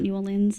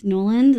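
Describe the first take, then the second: First: "New Orleans" with New kept separate; foreigner's pronunciation. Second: "Norland" run together in two syllables; local pronunciation. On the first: Streamer contrasting with locals, "New Orleans" said in full. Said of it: "like foreigners say". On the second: Streamer passing on what they heard, "Norland" said local-style. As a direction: say "Norland" as one squashed word, like a local. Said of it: "as far as I've heard, in many places". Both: Shown as a demonstration.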